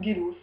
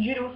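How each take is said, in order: First: "Gélos" with a hard g as in go; first G of "Gélos" hard, like Gu. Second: "Gélos" with a soft French zh at the start; first G of "Gélos" soft, like J. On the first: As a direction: say "Gélos" as Guélos. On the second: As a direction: say "Gélos" as Jélos. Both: Shown as a demonstration. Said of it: "je ne sais pas si ça se dit".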